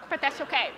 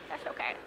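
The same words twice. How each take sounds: First: Said in the usual way. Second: Murmured much softer and lower, as if to herself; soft reassuring repeat. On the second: Real, not acted. Telling the audience it's fine, softly and much lower. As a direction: let it fall away to a quiet reassurance.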